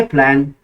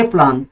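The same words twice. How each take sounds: First: प्लान with a flat front a, plen; प्लान in an American accent; American plan. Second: प्लान with a broad open ah, plaan; प्लान in a British accent; British plan. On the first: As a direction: say प्लान the American way, vowel as in cat. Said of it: "American लोग इसको पढ़ेंगे प्लान". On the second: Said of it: "बरतानवी लोग इसको पढ़ेंगे प्लान". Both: Shown as a demonstration.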